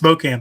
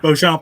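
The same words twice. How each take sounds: First: The name is pronounced the English way. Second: The name is pronounced the French way. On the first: This is how the family actually says it. "It's Beauchamp, actually" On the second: This is the original French form of the name. "Beauchamp is the French pronunciation"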